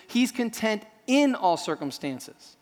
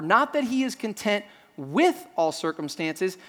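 First: Slow line with the weight on "in"; stress on IN. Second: Slow line with the weight on "with"; stress on WITH. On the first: Preacher giving what Paul really says, stress on "in". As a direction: punch "in" after a slight hold. Contrasts in against with. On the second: Preacher correcting a misreading of Paul, stress on "with". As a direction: lean on "with", drawn out and set apart. Contrasts with against in. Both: Shown as a demonstration.

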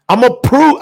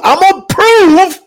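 First: Said in the usual way. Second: "I'm gonna prove" cried out high and loud; climactic cry. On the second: Acted. Preacher building to a climax, "I'm gonna prove" cried out high. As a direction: lift "prove" into a shout. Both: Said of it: "repeated build-up".

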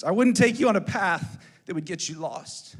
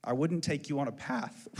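First: "I wouldn't take you on a path" restated louder, with weight; "path" given louder, deliberate weight; emphatic repeat. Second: Said in the usual way. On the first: Retold or imitated. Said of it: "Spiritual implications". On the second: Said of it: "I said".

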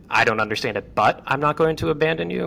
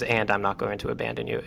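First: But I'm not going to abandon you, lifted high and quick on "but"; host contrasting the two phrasings, stressing "but". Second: "and I'm not going to abandon you" said softer and quick; host contrasting the two phrasings, soft "and"; stress on and. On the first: "but" raised high and quick. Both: Shown as a demonstration. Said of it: "Even the differentiation between".

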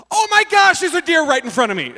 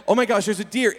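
First: High, loud shock, mid-daydream; sudden startled outburst. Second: Said in the usual way. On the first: Retold or imitated. Zoned-out driver suddenly spots a deer, startled outburst. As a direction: burst out in sudden alarm. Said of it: "literally like that". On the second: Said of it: "I was like".

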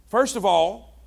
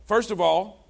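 Both takes have the same delivery.

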